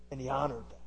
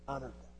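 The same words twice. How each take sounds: First: Said in the usual way. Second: Honored that, repeated much softer, the word honored falling away; soft echo. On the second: Shown as a demonstration. Preacher softly echoing his point to the congregation. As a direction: echo it back hushed to let it sink in.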